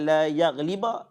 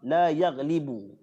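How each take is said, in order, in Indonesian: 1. Kata terakhir berakhir dengan vokal 'a'. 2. Kata terakhir berakhir dengan vokal 'u'. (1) "bukan la yaghliba" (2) "Kita betulkan baris dulu"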